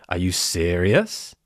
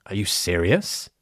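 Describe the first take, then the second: No difference in how they are said.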